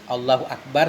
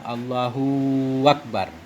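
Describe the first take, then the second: First: No syllable is drawn out long. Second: The hu syllable of Allahu is drawn out. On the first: The speaker calls it right. "sebagaimana yang sering kita baca" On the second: The speaker calls it wrong. "seolah-olah panjang hu-nya"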